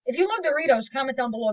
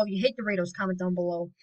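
First: Higher, louder upbeat pitch for lovers; excited hype. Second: Said in the usual way. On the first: Acted. Telling Doritos lovers to comment, excited. Contrasting love vs hate Doritos.

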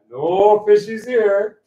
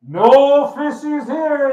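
First: Loud, high, slow call; booming voice reprise. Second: High, drawn-out booming call; loud booming voice. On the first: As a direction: replay the booming voice, a little smaller. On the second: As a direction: boom it out slowly from on high. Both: Acted. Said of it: "there's this loud booming voice".

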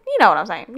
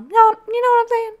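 First: Said in the usual way. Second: Squeaky voice. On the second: Pretend. Squeaky silly voice.

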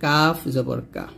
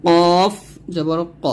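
First: Light, open k in কাফ; slow, light Arabic k on কাফ; thin kaf. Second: Heavy back-of-throat q in কফ; heavy Arabic q on ক; thick qaf. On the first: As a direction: say কা thin, not rounded. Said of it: "কাফটা কিন্তু পাতলা করে". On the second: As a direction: say কফ and ক thick and rounded. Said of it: "এই কফটা কিন্তু মোটা করে". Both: Shown as a demonstration.

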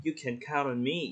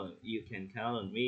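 First: Trustworthy, sincere. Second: Slow, softer "You can count on me", with no interest; indifferent, detached. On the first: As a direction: say "You can count on me" warmly, rising on "me". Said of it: "nghe nó rất là tin tưởng ấy". (giọng chân thành, đáng tin cậy) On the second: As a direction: say it as if you couldn't care less. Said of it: "nghe nó kiểu lãnh đạm ấy". (giọng lãnh đạm, chậm và nhỏ) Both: Shown as a demonstration.

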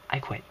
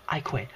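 The two takes are said the same way.

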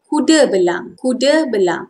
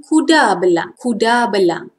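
First: Everyday "kuda belang", schwa ending kuda; informal Malay pronunciation. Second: Formal "kuda belang", full A in kuda; careful textbook "kuda belang"; formal Malay pronunciation. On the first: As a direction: say "kuda belang" as ku-duh be-lang. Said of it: "Informal pronunciation". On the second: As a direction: say "kuda belang" as ku-dah be-lang. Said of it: "Formal pronunciation". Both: Shown as a demonstration.

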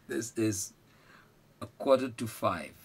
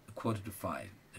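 First: Slow, deliberate a quarter to five; slow model phrase. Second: A quarter to five, slow and soft; softer slow repeat. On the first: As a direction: say a quarter to five slowly, stressing quarter. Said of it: "repeated slowly for learners". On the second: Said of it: "repeated slowly, quieter". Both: Shown as a demonstration.

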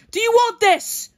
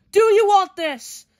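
First: Loud challenge. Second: Slower challenge. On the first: Voicing fighter's challenge. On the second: Repeat of the challenge. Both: Pretend.

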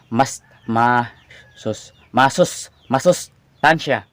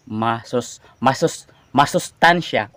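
First: Sounds out masustansya slowly; slow careful saying. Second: Sounds out "masustansya" slowly again; slow careful saying. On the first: Tongue-tied vlogger slowly sounds out the word. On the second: Vlogger slowly sounds out the hard word. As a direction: ease into "masustansya" syllable by syllable. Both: Shown as a demonstration. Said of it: "Unti-unti lang nating bigkasin".

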